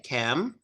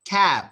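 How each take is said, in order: First: Soft, low "cam" humming on the M; slight vibration. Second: Sung, "cab" cut short at the B; sung, end "cab" with no vibration at all; no hum. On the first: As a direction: finish "cam" with a small hum. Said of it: "a little bit of vibration". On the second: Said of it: "there's no humming". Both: Shown as a demonstration.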